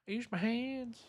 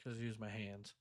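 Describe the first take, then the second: First: The line repeated much higher in a mock voice. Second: Mumbled low and much softer; tossed off under the breath; quiet aside. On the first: Streamer repeating the line, mock high voice. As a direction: jump way up into a silly squeak. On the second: Real, not acted. Streamer muttering to chat, much softer. Repeating the line twice.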